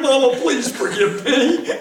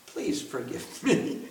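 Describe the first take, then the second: First: Pleading to Mama through a laugh; playful pleading. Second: Low, very soft pleading; hushed plea. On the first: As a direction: beg forgiveness, half laughing, lifting at the end. Acts out plea to Mother. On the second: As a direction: beg forgiveness almost under the breath. Repeats plea, now hushed. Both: Acted.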